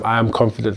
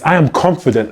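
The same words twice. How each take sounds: First: It is said flatly, without conviction. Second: It is said firmly, with real conviction. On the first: The speaker is only reciting the words. The speaker calls it wrong. "it's not just like" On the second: The speaker truly believes the words. The speaker calls it right. "because I really believe that"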